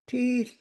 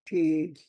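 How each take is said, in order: First: The word is said with a high pitch. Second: The word is said with a low pitch. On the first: It means shoes. "Tone mark on first letter, first E ... Your voice is up" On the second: It means scar. "No tone mark"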